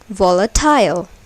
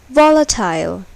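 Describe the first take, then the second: First: The stress is on the last syllable. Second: The stress is on the first syllable. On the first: The speaker calls it wrong. "Suppose if the last syllable is accented, then it will be pronounced like volatile" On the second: The speaker calls it right. "but it is volatile"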